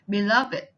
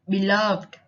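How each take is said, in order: First: The ending is an extra id syllable. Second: The ending is a plain d sound. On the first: It is used as an adjective. "the ed adjective takes it" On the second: It is used as a verb. "verbs simply follow the rules before"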